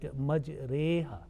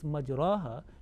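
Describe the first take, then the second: First: The vowel after r leans toward e. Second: The vowel after r is an open a. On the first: The speaker calls it right. "pronounced like majreha" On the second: The speaker calls it wrong. "basically the word is majraha"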